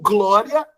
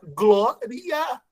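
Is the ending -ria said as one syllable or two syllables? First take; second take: one syllable; two syllables. First: The ending -ria is said as one syllable. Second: The ending -ria is split into two syllables. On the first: "Dá para você pronunciar a palavra como glória" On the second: "separando a palavra glória"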